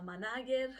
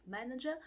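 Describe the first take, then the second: First: "manager" read by its spelling, "ma-NA-ger"; mispronounced manager. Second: "manager" said "MAN-i-jer"; correct manager. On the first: Teacher showing a learner error, "manager" mispronounced with middle stress. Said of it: "manager instead of manager". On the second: Teacher correcting a learner error, "manager" said with first-syllable stress. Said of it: "instead of manager". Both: Shown as a demonstration.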